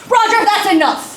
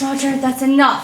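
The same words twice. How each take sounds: First: It is yelled loudly and angrily. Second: It is said quietly and gently.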